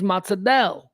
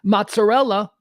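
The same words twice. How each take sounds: First: The word is clipped in an Italian-American dialect way. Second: The word is said in a standard Italian way.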